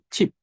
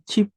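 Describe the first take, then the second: First: The final consonant sounds like a P. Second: The final consonant sounds like a B. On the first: The speaker calls it right. "Biap dibaca P. ... Tapi chip" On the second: The speaker calls it wrong. "Bukan chip"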